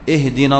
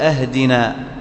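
First: The first vowel is i. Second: The first vowel is a. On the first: Guide us. The speaker calls it right. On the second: Give us a gift. The speaker calls it wrong.

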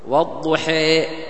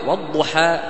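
First: The final vowel leans strongly toward 'ee'. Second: The final vowel is a plain open 'a'. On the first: "مثال الإمالة الكبرى" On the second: "إذا قرأت والضحى بفتح الشقين هذا يسمى فتح"

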